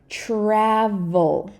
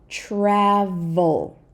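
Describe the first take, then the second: No difference in how they are said.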